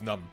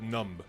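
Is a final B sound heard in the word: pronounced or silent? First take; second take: silent; pronounced. First: The word ends in M with no B. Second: The word ends with an audible B sound. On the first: The speaker calls it right. "that's just numb" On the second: The speaker calls it wrong. "I should not pronounce the B in numb"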